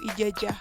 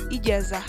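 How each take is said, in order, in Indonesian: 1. Konsonan tengahnya j. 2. Konsonan tengahnya z. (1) "atau ijajah" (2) "semestinya ijazah"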